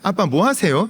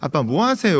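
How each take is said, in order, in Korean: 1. 이 질문은 밝고 반갑게 들려요. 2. 이 질문은 나무라고 다그치는 듯 들려요. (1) "이것은 아빠 놀아주세요" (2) "이거는 아빠 나와야죠. 왜 누워 있어요?"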